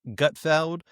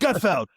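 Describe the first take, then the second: First: It is said plainly, without excitement. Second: It is yelled out with excitement.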